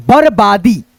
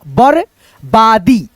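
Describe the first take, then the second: First: Said in the usual way. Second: बरबादी very slow, syllable by syllable; split syllables. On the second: Shown as a demonstration. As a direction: break बरबादी into parts slowly. (बरबादी को अलग-अलग अक्षरों में धीरे) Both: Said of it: "पढ़ेंगे इसको र".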